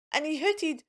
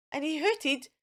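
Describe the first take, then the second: No difference in how they are said.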